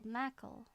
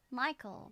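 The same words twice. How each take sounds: First: "Mackle" with a flat short A in place of the I; Southern "Mackle". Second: Said in the usual way. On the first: Shown as a demonstration. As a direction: learner reading the Southern I sound as "Mackle". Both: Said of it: "Michael is Michael".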